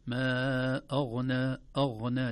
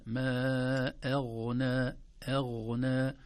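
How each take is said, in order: First: أغنى with the hamza made heavy; أغنى with a thick glottal start; wrong recitation. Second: أغنى with a light hamza, then a heavy ghain; light hamza, full ghain in أغنى; أغنى read with the hamza thin; correct recitation. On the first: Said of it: "لا نقول". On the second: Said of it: "نرقق الهمزة ثم ننتقل". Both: Shown as a demonstration.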